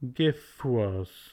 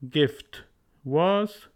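First: The t is dropped, gif linking into was. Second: The t at the end of gift is pronounced.

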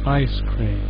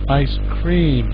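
First: The stress falls on ice. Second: The stress falls on cream. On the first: "British would stress ice cream" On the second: "So you're stressing the cream"

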